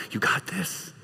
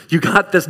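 First: Very soft, near-whispered cheer; hushed encouragement. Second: Said in the usual way. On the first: Acted. Watching witness to a struggling believer, hushed encouragement. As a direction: breathe it quietly as secret encouragement.

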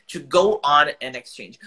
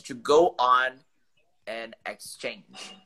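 First: "To go on an exchange" said louder and slowly; teacher repeats the phrase, louder and slower; clear model phrase. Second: An exchange drawn out very slowly; slow teaching delivery. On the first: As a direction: repeat "to go on an exchange" firmly for the student. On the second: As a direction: spell out "to go on an exchange" slowly and clearly. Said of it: "que eu vou mandar no chat". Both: Shown as a demonstration.

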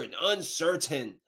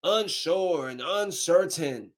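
First: Said in the usual way. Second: "Unsure" and "uncertain" drawn out slowly, "Unsure" hit hardest; slow, stressed repeat. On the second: Real, not acted. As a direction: spell the words out with disgust.

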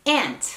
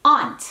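First: "Aunt" said like the insect ant; teaching "Aunt", rhyming with pant, falling; "ant" pronunciation. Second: "Aunt" said as AHNT, open back vowel, falling; crisp teaching "Aunt", rhyming with haunt; "ahnt" pronunciation. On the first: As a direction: model "Aunt" with a short front A. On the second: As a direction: model "Aunt" with a long AH. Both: Shown as a demonstration. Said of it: "vamos a practicar ambas".

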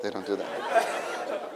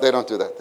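First: Soft, slow, laughing. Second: Said in the usual way. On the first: Shown as a demonstration.

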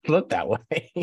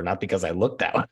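First: Higher, slow, laughing echo of looked that way; laughing repeat. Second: Said in the usual way. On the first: Real, not acted. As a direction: laugh through looked that way, drawn out.

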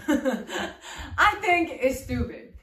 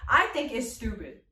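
First: Slow, laughing through the words; laughing repeat. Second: Said in the usual way. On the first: Real, not acted. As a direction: repeat it slowly while laughing.

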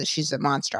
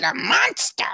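First: Low, soft retold statement; confiding verdict. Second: High-pitched, disbelieving question; incredulous echo. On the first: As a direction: drop it low and quiet, like damning gossip. Retold gossip, grave verdict. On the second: Retold or imitated. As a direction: echo it back in shock, pitch leaping up. Echoes gossip in disbelief.

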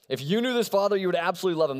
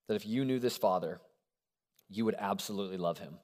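First: Higher and louder, proclaimed with energy; bold restatement. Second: Softly stated, low and hushed; quiet first statement. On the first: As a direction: announce it with conviction, up and loud. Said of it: "We're gonna go with it". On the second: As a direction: lay it down gently and softly. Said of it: "I know it sounds like a cheat answer". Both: Shown as a demonstration.

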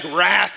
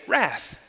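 First: "wrath" punched with force; forceful demo of an angry "wrath"; weighty, wrathful tone. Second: Soft, mild "wrath"; a harmless, understated "wrath"; too nice. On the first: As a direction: say "wrath" like a strong, severe word. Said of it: "you've gotta say it with this, this tone". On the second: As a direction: say "wrath" like it's just some nice word. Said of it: "like it's just some nice word". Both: Shown as a demonstration.

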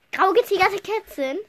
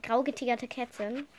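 First: Higher, disbelieving echo; incredulous repeat. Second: Said in the usual way. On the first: Real, not acted. Wiederholt ungläubig, lauter. (ungläubig wiederholt)

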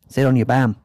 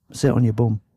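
First: "bam" with an open a, like "bam"; Yorkshire-ish bam. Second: "bum" with a rounded oo, like "boom" short; Yorkshire bum. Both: Shown as a demonstration. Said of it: "Bum, bam".

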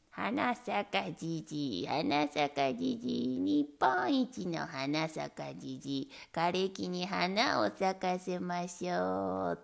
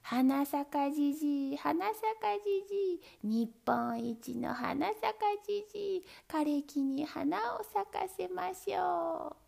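First: Put-on lower, slow, rough old man bellow; lightly voiced greedy old man bellowing. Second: Bright, lilting sing-song chant; cheerful chant. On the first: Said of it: "怒鳴って歩きました". (低くゆっくり怒鳴る欲張りじいさん) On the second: Acted. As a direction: chant it gaily, rising high. Good old man chants happily. (chanted, 明るく歌うような掛け声)

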